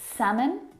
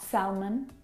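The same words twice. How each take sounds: First: The L sound is silent. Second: The L sound is pronounced. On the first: The speaker calls it right. "have a silent letter L in them" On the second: The speaker calls it wrong. "not salmon"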